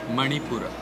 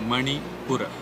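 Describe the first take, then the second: Both takes have the same delivery.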